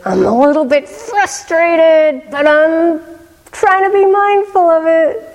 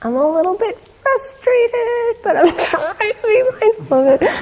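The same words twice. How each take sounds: First: Put-on higher, earnest teenage voice, holding it together; a teen admitting frustration, pitched up and earnest; voicing the teen boy. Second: Put-on much higher, quoting the boy through laughter; teacher repeats the boy's line, laughing fondly; laughing retelling. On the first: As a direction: quote the boy a little higher, trying to stay calm. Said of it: "And then he said". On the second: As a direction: retell his words while cracking up with delight. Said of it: "It was so great".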